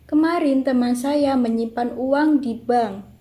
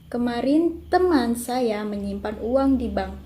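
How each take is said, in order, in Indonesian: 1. Tekanan jatuh pada di bank. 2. Tekanan jatuh pada teman. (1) "keenam mendapat tekanan pada di bank" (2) "kalimat kedua mendapatkan tekanan pada teman"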